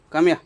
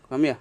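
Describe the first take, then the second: First: Loud call. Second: Said in the usual way. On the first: Real, not acted. Calling cat louder.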